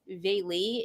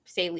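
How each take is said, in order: First: The name is said without an S sound. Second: The name is said with an S sound.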